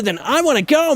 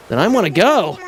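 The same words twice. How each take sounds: First: High, pushed heroic anime shout; Goku voice. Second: Said in the usual way. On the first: Shown as a demonstration. Goat villager accidentally sounding like Goku. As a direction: rise on go like a Saiyan hero. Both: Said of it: "turned into Goku there".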